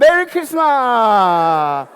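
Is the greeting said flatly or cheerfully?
cheerfully. It is said cheerfully, with a broad smile.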